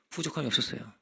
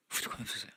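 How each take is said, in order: First: Said in the usual way. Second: 부족함이 없었어요 whispered, no voice. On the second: Shown as a demonstration. Preacher repeating the verse to the church in a whisper.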